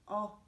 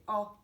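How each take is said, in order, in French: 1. La voyelle se prononce avec la bouche plus large. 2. La voyelle se prononce avec la bouche plus large.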